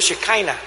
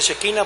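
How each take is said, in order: First: It is pronounced the English way. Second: It is pronounced the Spanish way. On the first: "en inglés se pronuncia Shekinah" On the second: "En Estados Unidos no se pronuncia Shekinah"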